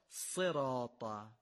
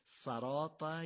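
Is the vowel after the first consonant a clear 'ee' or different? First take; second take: ee; different. First: The first vowel is a clear 'ee' sound. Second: The first vowel is not a clear 'ee' sound. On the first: The speaker calls it right. "قطعا دومی درسته" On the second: The speaker calls it wrong. "مواظب باشیم این صدای ای رو به ا تبدیل نکنیم"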